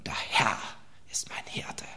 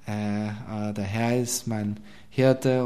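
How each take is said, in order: First: It is said smoothly with polished emphasis. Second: It is said hesitantly with filler sounds.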